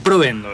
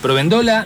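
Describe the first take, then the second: First: The stress falls on the usual syllable. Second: The stress is moved to another syllable. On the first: The speaker calls it right. "con el acento donde debe ir" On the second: The speaker calls it wrong. "Provéndola, no"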